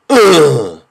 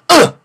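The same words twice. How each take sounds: First: The groan is slow and low. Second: The groan is quick and sharp. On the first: The speaker calls it wrong. "It can't be like this" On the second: The speaker calls it right. "Quick and sharp"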